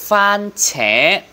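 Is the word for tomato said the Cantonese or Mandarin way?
Mandarin. It is said with the Mandarin pronunciation. "Trái cà chua tiếng Hoa là fan trẻ"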